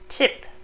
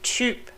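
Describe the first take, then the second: First: The vowel is a short unrounded i. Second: The vowel is a rounded ü sound. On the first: The speaker calls it wrong. "not tip" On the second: The speaker calls it right. "but typ"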